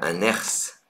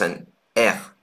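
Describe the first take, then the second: First: The final S is sounded. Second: The final S is silent. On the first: The speaker calls it wrong. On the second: The speaker calls it right.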